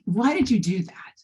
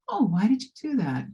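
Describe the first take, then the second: First: It sounds harsh and scolding. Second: It sounds gentle and curious.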